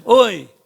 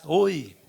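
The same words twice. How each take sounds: First: A loud call across the valley; child yelling into the canyon; boy shouting. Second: Put-on distant echo of the boy's call. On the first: Acted. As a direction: shout it out to the far cliff. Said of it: "a dar uns gritos". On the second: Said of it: "Aí o eco".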